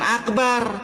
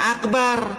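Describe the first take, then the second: First: The middle consonant is a hard k sound. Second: The same.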